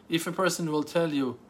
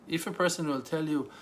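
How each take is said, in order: No difference in how they are said.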